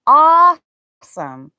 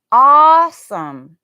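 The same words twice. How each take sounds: First: "Awesome." slow, open aw, louder; long aw. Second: "awesome" with a long open aw, slow and louder; drawn-out aw. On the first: Teacher modeling the aw sound for learners, slow. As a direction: hold the aw in "Awesome.". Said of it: "It's an aw sound". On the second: Teacher showing learners the aw in awesome, stretched. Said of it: "not awesome". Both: Shown as a demonstration.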